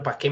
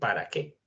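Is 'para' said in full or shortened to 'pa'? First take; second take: shortened; full. First: 'Para' is shortened to one syllable, 'pa'. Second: Both syllables of 'para' are said in full. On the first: The speaker is talking fast. "una persona que habla rápido dice" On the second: This is the careful form. "Deberíamos decir ¿para qué?"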